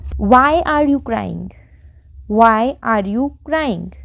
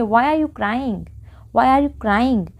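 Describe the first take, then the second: First: Very slow, every word apart; slow model sentence. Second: Said in the usual way. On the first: Shown as a demonstration. Teacher showing the English sentence to learners, very slow. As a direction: stretch it out word by word. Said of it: "तो हमारा sentence क्या बना". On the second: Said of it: "हम क्या बोलेंगे".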